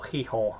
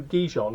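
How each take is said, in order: First: Gijón as "hee-HON", Spanish style; correct Spanish pronunciation. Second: Gijón said as spelt, with English consonants; anglicised pronunciation. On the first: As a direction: say Gijón with breathy Spanish h-sounds for G and j. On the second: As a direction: say Gijón the English reader's way, not with Spanish h-sounds. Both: Shown as a demonstration. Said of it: "as it's correctly pronounced".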